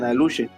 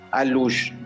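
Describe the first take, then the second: First: The word ends with a vowel after sh. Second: The word ends on a sh sound. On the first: This is how some other areas say it. "hay partes, según la zona, le dicen aluche" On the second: This is the local way of saying it. "Nosotros localmente le decimos alush"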